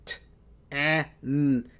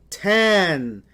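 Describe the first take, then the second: First: "t" and "an" said apart; segmented sounds. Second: "tan" as one loud blended word. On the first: Teacher sounds out the word for students. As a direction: sound out "t" then "an". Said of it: "make the word". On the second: Teacher blends the sounds for the class. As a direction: blend "tan" together, firmly. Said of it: "One word". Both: Shown as a demonstration.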